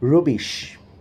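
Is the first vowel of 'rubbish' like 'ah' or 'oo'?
oo. The first vowel is a rounded 'oo' sound. "rather they will pronounce rubbish"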